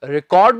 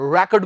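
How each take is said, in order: First: The word is pronounced the verb way. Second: The word is pronounced the noun way. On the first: It means to record something like a song. "ਰਿਕਾਰਡ ਅਸੀਂ ਅਕਸਰ ਉਦੋਂ use ਕਰਦੇ ਹਾਂ ਜਦੋਂ ਇਹਨੂੰ ਅਸੀਂ verb ਦੇ ਤੌਰ ਤੇ ਯੂਜ਼ ਕਰਦੇ ਹਾਂ" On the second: It means a record that someone can break. "ਰਿਕਾਰਡ ਕਹਿਣ ਦੀ ਬਜਾਏ ਰੈਕਡ ਕਹਿੰਦੇ ਹਾਂ"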